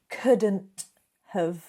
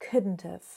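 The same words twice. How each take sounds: First: The T sound is strong and clearly released. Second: The T sound is weak and barely heard. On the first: The speaker calls it wrong. "it doesn't have to be couldn't have" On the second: The speaker calls it right. "that T sound often becomes a little bit weaker"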